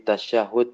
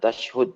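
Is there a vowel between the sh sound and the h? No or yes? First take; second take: yes; no. First: An a vowel separates the sh and h sounds. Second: The sh and h sounds run together without a vowel. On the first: The speaker calls it right. "tapi tasyahud berharokat syaknya fathah" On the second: The speaker calls it wrong. "bukan tashhud"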